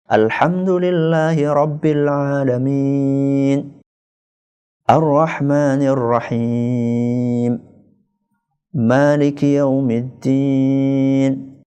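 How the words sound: Each verse is followed by a clear pause. It gives time to reflect on each verse. "ayat per ayat"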